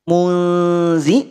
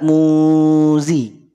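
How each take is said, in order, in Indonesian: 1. Kata "muzi" diucapkan tipis, pangkal lidah rendah. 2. Kata "muzi" diucapkan tebal, pangkal lidah naik.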